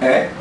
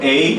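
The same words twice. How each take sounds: First: The vowel is short and clipped. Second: The vowel is long, like the letter name. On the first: The short vowel sound is meant. "eu estou falando da vocal curta" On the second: The letter of the alphabet is meant. "eu estou falando do alfabeto"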